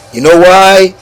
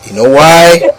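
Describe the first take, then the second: No difference in how they are said.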